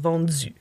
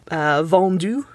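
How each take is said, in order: First: The d before u sounds like dz. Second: The d before u is a plain d. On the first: "you have vendu" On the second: "Or vendu"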